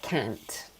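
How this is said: It is said in an American accent. "They would say like can't"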